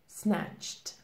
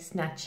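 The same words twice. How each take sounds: First: The ending is pronounced as a T. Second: The ending is not pronounced as a T. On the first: The speaker calls it right. "the correct pronunciation is snatched. We have the T pronunciation" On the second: The speaker calls it wrong. "we don't say snatched. This is incorrect"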